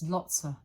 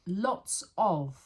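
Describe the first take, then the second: First: The word of almost disappears. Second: The word of is clearly pronounced.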